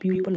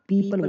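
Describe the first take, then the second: First: The first vowel is a 'yoo' sound. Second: The first vowel is a plain 'ee' sound. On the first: The speaker calls it wrong. "प्यूपल नहीं बोलते" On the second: The speaker calls it right. "पीपल बोलते हैं इसको"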